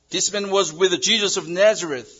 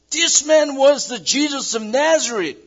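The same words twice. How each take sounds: First: Said in the usual way. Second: High, loud accusing cry; public accusation. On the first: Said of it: "repeated plain reading". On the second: Acted. Slave girl to the crowd, a high loud accusing cry. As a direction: call him out to the whole courtyard.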